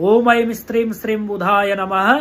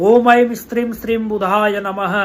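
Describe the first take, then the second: The two takes are said the same way.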